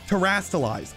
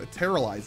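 First: The word has an 'st' sound in the middle. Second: The word has no 'st' sound in the middle. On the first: The speaker calls it right. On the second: The speaker calls it wrong.

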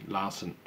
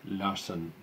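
Both takes have the same delivery.

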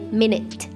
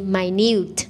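First: The stress is on the first syllable. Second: The stress is on the second syllable. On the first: It is the noun meaning sixty seconds. "If it is a noun, you say minute" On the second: It is the adjective meaning very small. "But this is an adjective, we say minute"

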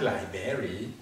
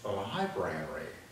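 First: The first syllable is said with the 'lee' vowel. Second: The first syllable is said with the 'lie' vowel. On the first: The speaker calls it wrong. "not library" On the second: The speaker calls it right. "it's library"

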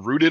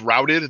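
First: The vowel sounds like the one in 'boot'. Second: The vowel sounds like the one in 'out'. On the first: Something is fixed in place like a tree. The speaker calls it wrong. "they were rooted. I'm like, wait, is it a tree" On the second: The soldiers fled in defeat. The speaker calls it right. "instead of the unit was routed"

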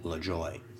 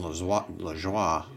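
First: The name is said with an American pronunciation. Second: The name is said with a French pronunciation. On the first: "American version" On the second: "French version"

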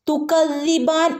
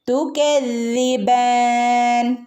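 First: The k sound is said plainly. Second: The k sound is said with a slight slant. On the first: The speaker calls it wrong. "തുകദ്ദിബാൻ എന്ന് ഓതരുത്" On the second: The speaker calls it right. "കുറച്ച് ചെരിച്ചിട്ട് വേണം കാഫിനെ ഉച്ചരിക്കാനായിട്ട്"

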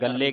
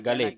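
First: The L sound is held long and doubled. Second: The L sound is short, single and soft. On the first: The speaker calls it wrong. "ਇਹਨੂੰ ਅਧਕ ਲਾ ਕੇ ਉਚਾਰਨ ਕਰਨ ਗੱਲੇ ਕਹਿ ਦਾਂਗੇ ਤੇ ਅਰਥ ਬਦਲ ਜਾਣਾ" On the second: The speaker calls it right. "ਗਲੇ ਕਹਿਣਾ ਗਲੇ, ਪੋਲਾ ਸ਼ਬਦ ਪੜਨਾ"

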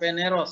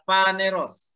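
First: The first vowel sounds like 'e'. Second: The first vowel sounds like 'a'. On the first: The speaker calls it wrong. "Bukan peneros" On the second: The speaker calls it right.

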